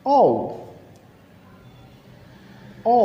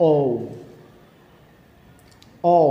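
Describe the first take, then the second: First: British-accented letter "ও". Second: American-accented letter "ও". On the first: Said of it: "ব্রিটিশরা এই লেটারটাকে উচ্চারণ করবে". (British উচ্চারণে "ও") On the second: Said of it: "আমেরিকানরা এটাকে একটু অন্যভাবে বলে". (আমেরিকান উচ্চারণে "ও") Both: Shown as a demonstration.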